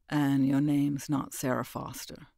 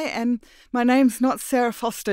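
First: Calm menace as he exposes her; the stranger unmasking her lie, low and cold; lightly voiced cold man. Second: Higher and louder, earnest; Mira's shaken voice. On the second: Acted. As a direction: confess it nervously. Mira voiced high.

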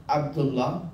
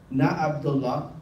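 First: Abdullah opened from the throat; with the Ain. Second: Abdullah with an English a; wrong way. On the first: Teacher showing the right Abdullah. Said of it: "It's Ain". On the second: Teacher showing the wrong Abdullah. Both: Shown as a demonstration.

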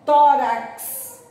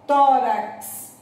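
First: "Tórax" com X como KS, bem marcado; slow tórax. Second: "tórax" repetido com KS claro. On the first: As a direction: diga "Tórax" destacando o som KS. (pronúncia "Tórax" com KS) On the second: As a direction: repita "tórax" marcando o KS. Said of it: "Não parece que tem o C e o S?". ("tórax" com som de KS) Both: Shown as a demonstration.

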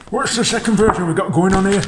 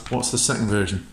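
First: Much higher, playful Yorkshire voice; Yorkshire accent. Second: Said in the usual way. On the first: Pretend. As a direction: put on a high-pitched Yorkshire accent. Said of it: "That's my Yorkshire voice".

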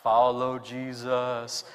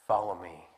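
First: Low, drawn-out, solemn call; low slow call. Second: Low, soft invitation; gentle call. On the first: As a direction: intone it low and slow, like a trance. Flat voiced disciples' call. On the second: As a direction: say it gently, smiling. Jesus smiles and calls. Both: Retold or imitated.

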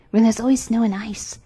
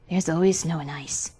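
First: Lightly raised bird voice; wood pigeon voice. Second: Lightly voiced, lower reindeer. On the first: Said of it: "Then the wood pigeon said". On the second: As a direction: answer as the reindeer, a touch low. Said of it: "said the reindeer". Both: A narrator's reading.

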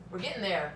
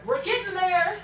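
First: Said in the usual way. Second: Higher and louder, upbeat; cheerful. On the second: Real, not acted. Reassuring viewers about sugar, upbeat cheer. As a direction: cheer yourself on.

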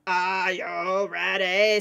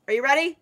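First: Low, slow, drawn-out call; mock hype call. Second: Said in the usual way. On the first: Player hyping friends for the hunt, slow drawn-out call. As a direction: stretch every word like a showman.

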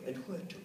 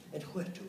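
The two takes are said the same way.

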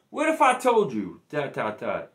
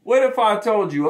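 First: A hint of a dramatic ESPN documentary narrator; ESPN style. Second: Said in the usual way. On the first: Shown as a demonstration. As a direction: tease the reveal like a sports film trailer, trailing off. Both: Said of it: "I'm gonna do this E S P N style".

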